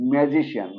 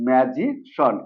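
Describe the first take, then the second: First: "ম্যাজিশিয়ান" ending in two syllables, shi-yan; common mispronunciation. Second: "ম্যাজিশন" ending in one syllable shon; correct SHON ending. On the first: Teacher quotes the normal habit, "ম্যাজিশিয়ান" ending shi-yan. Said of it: "যেভাবে pronunciation করি". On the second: Teacher gives the correction, "ম্যাজিশন" ending in shon. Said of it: "এটা হলো". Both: Shown as a demonstration.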